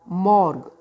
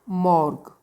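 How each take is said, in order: Both takes have the same delivery.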